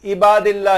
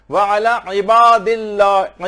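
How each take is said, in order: First: इबादिल्लाह said with a plain alif, no ain; wrong alif sound. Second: Slow व अला इबादिल्लाह with a throaty ain in अला; slow careful recitation; correct ain sound. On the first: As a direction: give इबादिल्लाह the mistaken alif vowel. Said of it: "ये नहीं, ये गलत हो जाएगा". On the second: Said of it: "आइन की आवाज निकलनी चाहिए". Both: Shown as a demonstration.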